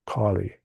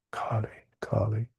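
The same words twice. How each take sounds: First: Said in the usual way. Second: A soft, breathless whisper of Kali, Kali. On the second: Shown as a demonstration. Teacher invokes the goddess to his listeners, whispering.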